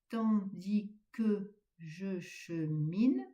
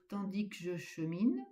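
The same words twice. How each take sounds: First: The final vowel of 'que' is pronounced. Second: The final vowel of 'que' is dropped. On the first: The speaker calls it right. "Bien prononcer le E de que" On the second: The speaker calls it wrong. "ne pas dire"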